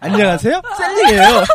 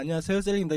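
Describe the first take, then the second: First: It is said in a cringey, cutesy way. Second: It is said in a plain, natural way.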